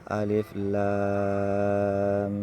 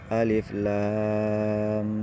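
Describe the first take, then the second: Both takes have the same delivery.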